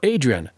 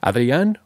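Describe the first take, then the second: First: The name has an American English pronunciation. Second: The name has a Spanish pronunciation.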